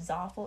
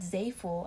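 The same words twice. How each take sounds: First: The first vowel sounds like in awful. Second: The first vowel sounds like in say. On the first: "if it was Zaful, it'd be spelled like awful" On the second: "with Zaful, I feel like they'd be Z-A-Y-F-U-L"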